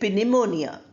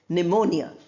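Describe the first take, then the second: First: A p sound is heard before the n. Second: No p sound is heard before the n. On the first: The speaker calls it wrong. "We don't say pneumonia" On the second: The speaker calls it right. "We pronounce only the nen"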